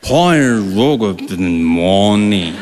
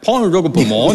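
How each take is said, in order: First: It is said very slowly. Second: It is said at normal speed.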